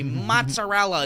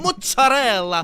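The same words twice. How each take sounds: First: The word is said in full, standard American style. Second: The word is clipped in the Italian-American way. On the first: This is the outsider's way of saying it. The speaker calls it wrong. "you say mozzarella" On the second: This is the local way of saying it. The speaker calls it right. "instead of mozzarella"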